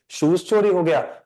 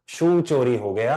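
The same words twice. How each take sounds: First: A mock wrong answer, "शूज" ending in z, stress on चोरी; "शूज" said with the plural z ending. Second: The corrected form, "शू" ending on the vowel, with a slight rise on it; "शू" said as the bare singular, no final sound. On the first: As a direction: say "शूज" with a final z sound, as the mistaken form. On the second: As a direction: say "शू" with no s or z at the end, clean and short. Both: Shown as a demonstration. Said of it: "ना, ना, ना".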